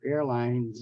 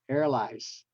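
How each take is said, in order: First: The N is kept and the ending is a Z. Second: The N is dropped and the ending is an S. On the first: The speaker calls it right. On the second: The speaker calls it wrong.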